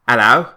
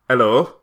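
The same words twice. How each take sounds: First: It is said in a Cockney accent. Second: It is said in a Yorkshire accent.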